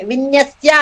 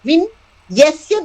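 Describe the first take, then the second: First: It is said as one joined word. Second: It is said with a break after vin. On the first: It refers to arrangements or displays. The speaker calls it wrong. "అది గనక మనం విన్యస్య అని చదివితే అర్థం మారిపోతుంది" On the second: It refers to the one in whom the seen world rests. The speaker calls it right. "అది కాదు"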